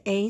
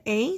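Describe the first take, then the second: First: "A" said as long "ay"; A as a gliding "ay"; long A sound. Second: "A" said as short "ah"; A as an open "ah", not "ay"; short A sound. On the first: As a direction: give A its letter-name sound, "ay". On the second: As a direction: give A its short vowel, "ah". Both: Shown as a demonstration. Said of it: "every vowel makes two sounds".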